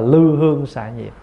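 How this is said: The first syllable is said with the vowel 'ư'. This is how it is pronounced nowadays. "sau này mình phát âm là lư hương xạ nhiệt"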